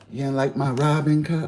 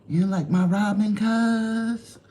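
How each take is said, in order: First: Said in the usual way. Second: Higher, whiny mock complaint; higher mock hurt. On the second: Streamer teasing chat about his Robin, higher pouty voice. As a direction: pout it up high at chat.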